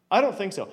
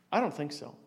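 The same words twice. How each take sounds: First: Louder repeat, stress on don't; firm denial. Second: Soft, low first take of I don't think so; quiet denial. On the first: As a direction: hit don't firmly, settling it. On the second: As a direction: say it quietly, almost to yourself. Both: Shown as a demonstration.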